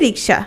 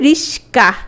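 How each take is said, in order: First: The middle cluster is k followed by s. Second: The middle cluster is s followed by k. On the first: This is the original form of the word. "মূল শব্দ হচ্ছে রিক্সা" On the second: This is the altered form after a sound change. "পরিবর্তিত হয়েছে রিস্কা"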